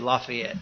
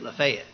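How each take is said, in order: First: It is said the northern local way. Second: It is said the Tennessee local way.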